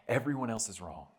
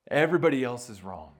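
First: Said in the usual way. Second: Louder, punched everybody; emphatic restatement. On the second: Shown as a demonstration. Preacher drives home Luther's claim, loud. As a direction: hit Everybody hard and loud.

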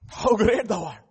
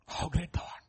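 First: Said in the usual way. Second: Breath-only reverent whisper; whispered awe. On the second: Shown as a demonstration. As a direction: whisper it in wonder. Hymn line repeated, whispered.

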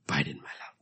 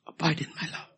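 First: Abide breathed unvoiced and soft; hushed echo of the call; whispered. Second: Abide pitched high and ringing; ringing high call to abide; high emphatic. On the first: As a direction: whisper "Abide in my love" intimately. Repeated phrase, whispered. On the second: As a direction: lift "Abide in my love" high, proclaiming. Repeated phrase, high then whispered. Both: Shown as a demonstration.

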